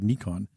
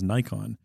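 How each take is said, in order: First: The name is pronounced the original way. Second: The name is pronounced the North American way. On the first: The speaker calls it right. "That is how you pronounce the word Nikon" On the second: The speaker calls it wrong. "if you come to North America, you'll hear people pronouncing it as Nikon"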